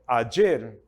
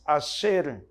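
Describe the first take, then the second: First: It is said in a standard Spanish accent. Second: It is said in an Argentine Spanish accent.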